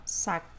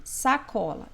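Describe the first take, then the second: First: SACOLA called out with a very long stressed CO; calling the word. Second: Said in the usual way. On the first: Shown as a demonstration. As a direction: stretch the middle of "sacola": sa-COOO-la. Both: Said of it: "Chama a palavra".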